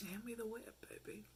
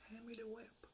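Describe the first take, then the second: First: Soft teasing purr; mock seductive. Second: Even softer, near a whisper; mock seductive hush. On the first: Pretending to be his dom, a soft teasing purr. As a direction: hush it like a playful dominatrix. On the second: Repeating her dom line to the man, hushed and teasing. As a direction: lean in and purr the order.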